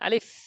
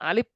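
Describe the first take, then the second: First: The final sound is made with lip against teeth. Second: The final sound is made with both lips closed. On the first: The speaker calls it right. "পড়েছি আলিফ" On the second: The speaker calls it wrong. "আলিফ তো আমরা পড়ি নাই, দুই ঠোঁট লাগিয়ে"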